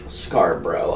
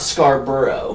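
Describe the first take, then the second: First: The name is said with two syllables. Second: The name is said with three syllables. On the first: The speaker calls it right. "my name is two syllables" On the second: The speaker calls it wrong. "It's not Scarborough"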